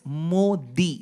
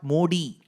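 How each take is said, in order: First: The d is a softer, non-English d sound. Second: The d sounds like a hard English d. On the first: The speaker calls it right. "It's Modi" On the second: The speaker calls it wrong. "not Modi"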